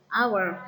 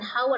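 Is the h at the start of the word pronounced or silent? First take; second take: silent; pronounced. First: The word begins with no h sound. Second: The word begins with an audible h sound. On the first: The speaker calls it right. "tapi hour, hanya tidak dibaca ya" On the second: The speaker calls it wrong. "dibacanya bukan hour ya"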